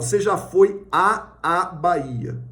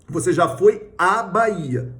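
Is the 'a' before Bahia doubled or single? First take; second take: doubled; single. First: Two separate a sounds come before Bahia. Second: A single a sound comes before Bahia. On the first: The speaker calls it wrong. "Você não fala assim" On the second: The speaker calls it right. "Como é que você fala?"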